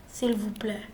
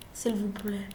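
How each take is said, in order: Both takes have the same delivery.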